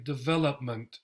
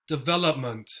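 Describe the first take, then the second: First: Development. con schwas, acento en vel; acentúa vel en Development. y suaviza o y e; schwa vowels. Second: Development con o y e reducidas a schwa, acento en vel; schwa vowels. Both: Shown as a demonstration. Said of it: "here the O turns into a schwa".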